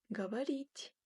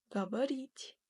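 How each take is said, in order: The two takes are said the same way.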